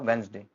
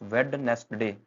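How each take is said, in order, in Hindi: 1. बीच का d गिराया जाता है, Wenzday जैसा बोला जाता है। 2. हर अक्षर बोला जाता है, बीच का d भी। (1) "बनेगा वेंसडे" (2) "हमेशा ऐसा बोलते हैं, गलत बोलते हैं"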